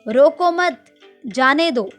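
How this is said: There is a pause right after 'mat'.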